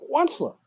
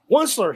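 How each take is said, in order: First: Pitched higher, second croaky cry; higher croaky call. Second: A mild croak calling out the name; first croaky cry of Onceler. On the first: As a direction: call Onceler again, higher and more urgent. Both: A narrator's reading. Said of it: "he cried with his crufulous croak".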